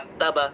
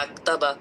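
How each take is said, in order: Both takes have the same delivery.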